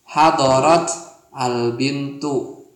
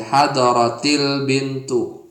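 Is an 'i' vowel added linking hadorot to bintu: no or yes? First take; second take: no; yes. First: The words are said separately with no linking vowel. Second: An added 'i' vowel links the two words. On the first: The speaker calls it wrong. "kasih ta belakangnya. Hadorot al-bintu" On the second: The speaker calls it right. "Tapi dibacanya hadorotil bintu. Karena kan sukun ketemu sukun gak bisa dibaca"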